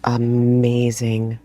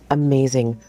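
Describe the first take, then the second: First: Amazing stretched slow, each syllable held; drawn-out amazing. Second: Said in the usual way. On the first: Real, not acted. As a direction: savour the word amazing slowly.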